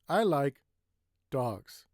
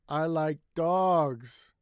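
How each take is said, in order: First: A short pause comes before one word. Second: One word is stretched out longer. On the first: "take a little break" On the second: "Another way is to make it longer"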